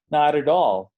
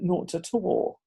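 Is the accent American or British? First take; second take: American; British. First: It is said with an American accent. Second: It is said with a British accent. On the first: "O en americano" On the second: "yo esperaría en inglés británico algo como"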